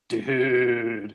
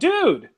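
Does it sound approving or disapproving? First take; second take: disapproving; approving. First: It is said in a disapproving, negative tone. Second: It is said in an approving, positive tone.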